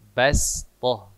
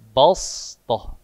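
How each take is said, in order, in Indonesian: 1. Bunyi s itu polos dan ringan. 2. Bunyi s itu tebal dan berat. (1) "so dibaca sin" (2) "Yang semestinya balstoh, tebal"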